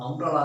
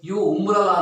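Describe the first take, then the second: First: The word begins with a vowel sound. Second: The word begins with a 'y' sound. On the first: The speaker calls it right. "ನಾವು ಅಂಬ್ರಲ್ಲ ಅಂತೀವಿ" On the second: The speaker calls it wrong. "ಯು ಉಂಬ್ರಲ್ಲ ಅಂತಲ್ಲ"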